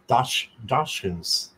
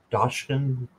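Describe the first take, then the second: First: Dach- broken off, then Dachshunds said slowly, syllable by syllable; slow careful retry. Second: Dachshund tried quickly and said as "tatchkun", cut short; a rushed, unsure first try at Dachshund; mispronounced attempt. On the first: Reading the deck to Courtney, she retries Dachshunds slowly and carefully. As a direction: sound out Dachshunds slowly after a false start. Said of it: "I can't say it". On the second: Reading the deck to Courtney, she fumbles the word Dachshund, unsure. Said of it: "I'm not saying that right". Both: Real, not acted.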